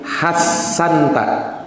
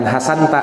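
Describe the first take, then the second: First: The middle s sound is long and doubled. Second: The middle s sound is short and single. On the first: The speaker calls it right. "tapi hassanta. Sinnya itu dua" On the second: The speaker calls it wrong. "bukan hasanta"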